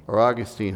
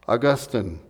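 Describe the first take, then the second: First: Put-on "Augustine" said AW-gus-teen, stress on the first syllable, long -teen ending; "Augustine" as AW-gus-teen, first syllable stressed, final syllable a full long teen; alternative pronunciation. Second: "Augustine" said AW-gus-tun, stress on the first syllable, unstressed last syllable; "Augustine" as AW-gus-tun, first syllable stressed, final syllable reduced to tun; first pronunciation. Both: Shown as a demonstration. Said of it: "however you pronounce his name".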